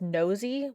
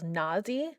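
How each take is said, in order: First: The first vowel sounds like the vowel in nose. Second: The first vowel sounds like the vowel in not. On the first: The name comes from the word nose. "which makes sense because they do cool things with their nose" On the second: Someone else said it this way. "the guy at the flea market said it was"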